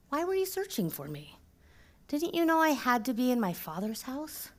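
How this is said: It is said with gentle, caring concern.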